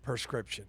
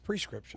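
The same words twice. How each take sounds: First: The first syllable is said as 'per'. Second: The first syllable is said as 'pre'. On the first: This is how someone else said it. The speaker calls it wrong. "He said prescription" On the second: This is how the word really is. The speaker calls it right. "when it's prescription"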